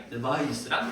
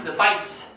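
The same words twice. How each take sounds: First: "device" low and oily with a soft z ending; smooth, drawn-out "device", buzzed at the end; greasy pronunciation. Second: "device" drawn out to a sharp s; sharp pronunciation. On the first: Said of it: "제가 왜 이렇게 느끼하게". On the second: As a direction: end "device" on a crisp hiss, in contrast to the z. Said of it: "얘는 날카롭게 읽어야 돼". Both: Shown as a demonstration.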